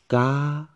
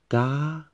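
First: The pitch stays high throughout. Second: The same.

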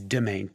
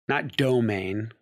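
First: It is said as demain, starting with de. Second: It is said like the common word domain. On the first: The speaker calls it right. "It's domain, D-E-M-A-I-N" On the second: The speaker calls it wrong. "not domain, as many people get it wrong"

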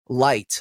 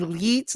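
First: The name rhymes with the word light. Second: The name has a long ee vowel. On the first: "like an actual light" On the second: "like with E's, like they have like four, five"

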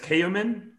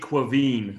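First: The name is sounded out as it is spelled. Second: The name is said in its Irish form. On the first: This is a guess from the spelling. The speaker calls it wrong. "if I were not to look it up, I would pronounce it as Kayumin" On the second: This is the real pronunciation. The speaker calls it right. "but it's actually Quaveen"

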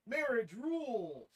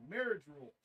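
First: The stress falls on the word rules. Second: The stress falls on the word marriage. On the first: Marriage is awesome. The speaker calls it wrong. "I think I emphasized that wrong" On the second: These are rules for marriage. The speaker calls it right. "Probably meaning rules for marriage"

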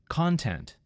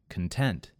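First: The stress falls on the first syllable. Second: The stress falls on the second syllable. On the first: "In the first word, it was on the first syllable" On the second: "in the second word, I moved the emphasis to the second syllable"

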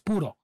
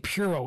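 First: It is said with a Spanish pronunciation. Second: It is said with an American English pronunciation. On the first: The speaker calls it right. "It's Puro" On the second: The speaker calls it wrong. "They say Puro"

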